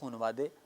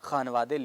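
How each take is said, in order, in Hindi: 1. पहला स्वर 'u' की आवाज़ है। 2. पहला स्वर लंबी 'a' आवाज़ है। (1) "पढ़ा जाता है" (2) "लिखा जाता है"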